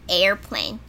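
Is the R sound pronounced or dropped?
pronounced. It is said with an American R sound.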